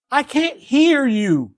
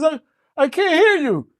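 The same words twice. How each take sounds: First: The same words drawn out, slow and high; deaf frog, slowly. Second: Lightly voiced frog, high and odd; a frog who can't hear a word; deaf frog. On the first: Acted. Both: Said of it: "He says".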